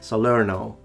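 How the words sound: It is said with an American accent. The speaker calls it wrong. "which sounds very American"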